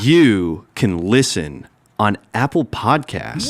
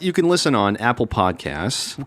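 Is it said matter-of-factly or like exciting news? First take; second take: exciting news; matter-of-factly. First: It is said like surprising, exciting news. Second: It is said in a plain, matter-of-fact way.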